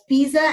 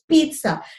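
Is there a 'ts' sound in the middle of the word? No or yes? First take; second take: no; yes. First: The middle sound is a plain z, no t. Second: The middle sound has a t before the z. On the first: The speaker calls it wrong. "Many people pronounce it as pizza, and that's wrong" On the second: The speaker calls it right. "It's pizza. Like there's an imaginary T there"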